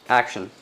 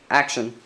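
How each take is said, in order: Both takes have the same delivery.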